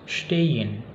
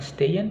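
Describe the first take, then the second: First: It begins with an 'sh' sound. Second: It begins with a plain 's' sound. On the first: The speaker calls it right. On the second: The speaker calls it wrong.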